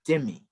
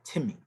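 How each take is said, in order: First: The word begins with a D sound. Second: The word begins with a T sound. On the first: "See how the D is interchangeable with the T?" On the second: "this word here, Timmy"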